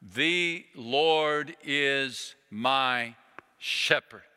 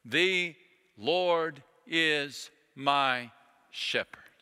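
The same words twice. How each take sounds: First: Very slow, one word per finger; slow counted recitation. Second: Slow recitation fading to whisper. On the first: Retold or imitated. Chaplain has soldiers recite the psalm, slowly counting on fingers. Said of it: "ticking off one finger at a time". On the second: Shown as a demonstration. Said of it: "I encourage you to do so".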